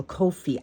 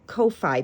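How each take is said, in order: First: Ko-fi said as KOH-fee; Ko-fi with second syllable rhyming with "see"; alternative pronunciation. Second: Ko-fi said as KOH-fye; Ko-fi with second syllable rhyming with "pie"; alternative pronunciation. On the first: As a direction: say Ko-fi like "coffee" with a long O. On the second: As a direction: say Ko-fi ending like "eye". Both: Shown as a demonstration. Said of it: "I don't know how to pronounce it".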